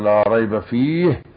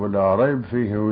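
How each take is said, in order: First: There is a breath-length pause after rayb. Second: Rayb ends silenced but runs straight on without pause. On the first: The speaker calls it right. "نقف مقدار التنفس" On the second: The speaker calls it wrong. "لا يجوز هذا"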